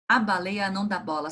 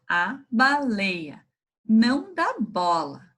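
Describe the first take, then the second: First: It is read at the quickest pace. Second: It is read at a slow, normal pace.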